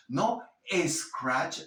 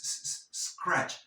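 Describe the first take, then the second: First: Scratch with an extra E in front, "escratch"; false E before scratch. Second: Scratch begun on a pure hissed S; no false E. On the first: Teacher mocking the learner's false E, escratch with an added vowel. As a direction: put a wrong little "eh" before scratch. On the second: Teacher showing Spanish speakers scratch without E, starting on bare S. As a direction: isolate the s, then slide into scratch. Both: Shown as a demonstration. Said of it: "no crees una E falsa".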